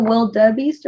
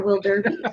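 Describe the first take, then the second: First: "wildebeest" as WIL-duh-beest, no r; "wildebeest", middle syllable r-less; without the r. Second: "wilderbeest" as WIL-der-beest, r sounded; "wilderbeest", r in the middle syllable. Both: Shown as a demonstration. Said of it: "Is it wildebeest or wilderbeest".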